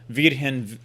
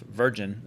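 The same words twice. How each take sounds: First: The name is pronounced a non-English way. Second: The name is pronounced the English way. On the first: "but Virgin" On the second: "Virgin is how you say it in English"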